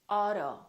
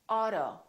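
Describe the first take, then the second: The two takes are said the same way.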